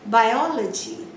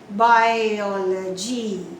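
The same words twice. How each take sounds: First: The stress is on the second syllable. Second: The stress is on a different syllable. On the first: The speaker calls it right. "the stress will be on the third last syllable" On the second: The speaker calls it wrong. "You don't say biology"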